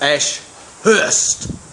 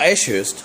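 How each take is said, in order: First: A separate h sound begins the second part. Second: No separate h sound begins the second part. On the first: The name is spelled with two h's. The speaker calls it right. "That's the proper way to pronounce Ashurst" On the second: The name is spelled with one h. The speaker calls it wrong. "It's not Ashurst. That would that would have one H"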